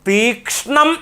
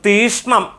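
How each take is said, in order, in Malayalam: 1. sh-ന് മുൻപുള്ള k ശബ്ദം വ്യക്തമായി ഉച്ചരിക്കുന്നു. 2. sh-ന് മുൻപുള്ള k ശബ്ദം ഒഴിവാക്കപ്പെടുന്നു. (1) "തീക്ഷ്ണം എന്നുള്ളതാണ്" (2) "പലരും പറയുമ്പോൾ തീഷ്ണം എന്നാണ് പറയുന്നത്"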